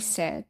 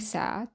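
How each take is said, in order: First: The vowel is a mid 'eh' sound. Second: The vowel is an open 'ah' sound. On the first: The speaker calls it wrong. "I will show you the wrong model first" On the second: The speaker calls it right. "then I will show you the corrected one"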